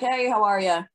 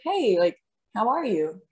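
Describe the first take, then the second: First: The greeting sounds automatic and absent-minded. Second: The greeting sounds sincere and genuinely interested.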